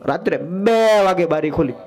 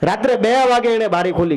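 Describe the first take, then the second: First: બે hit with a falling accent; stress on બે. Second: Said in the usual way. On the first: Shown as a demonstration. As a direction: lean hard on બે to drive the hour home. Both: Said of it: "કેટલા વાગે?".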